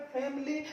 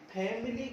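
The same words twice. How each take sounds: First: फैमिली in two syllables, "fam-lee"; correct फैमिली. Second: फैमिली in three full syllables, "phai-mi-lee"; mispronounced फैमिली. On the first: Teacher giving learners the right form, फैमिली as "fam-lee". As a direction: drop the middle i of फैमिली: "famlee". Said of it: "सही होता है". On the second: Teacher showing the common mistake, फैमिली as "phai-mi-lee". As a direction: keep the middle i in फैमिली: "phaimilee". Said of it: "फैमिली गलत होता है". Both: Shown as a demonstration.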